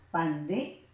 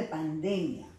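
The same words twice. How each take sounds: First: "pandemia" broken up, DE held and rising; stress on DE. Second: Said in the usual way. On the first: Shown as a demonstration. Teacher answering where intensity falls, "pandemia" stressed on DE. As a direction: stretch DE in "pandemia" and pause after it. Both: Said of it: "¿dónde está la mayor intensidad de voz?".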